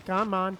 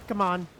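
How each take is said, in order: Both takes have the same delivery.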